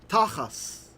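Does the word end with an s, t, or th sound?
s. The word ends with an s sound.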